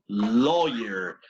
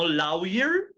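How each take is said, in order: First: The first vowel is a single plain O. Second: The first vowel glides into a U sound. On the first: The speaker calls it right. "No suena U para nada" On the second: The speaker calls it wrong. "No lawyer"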